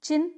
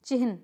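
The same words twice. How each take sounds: First: चिन्ह said chinh, n before the h; wrong pronunciation. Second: चिन्ह said chihn, h before the n; correct pronunciation. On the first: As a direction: demonstrate चिन्ह as a quick chin. Wrong form shown before right one. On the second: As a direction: model चिन्ह as chi-hn. Corrected form follows the wrong one. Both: Shown as a demonstration.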